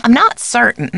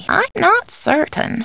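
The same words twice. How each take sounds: First: NOT raised, then falling away; firmer take. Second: High, drawn-out uncertainty; hesitant take. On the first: Housekeeper unsure of an answer, matter-of-fact. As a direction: lean on "not" and finish quickly. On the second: Housekeeper unsure of an answer, high and hesitant. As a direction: lift it high and slow it down. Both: Acted. Alternate takes of stock line.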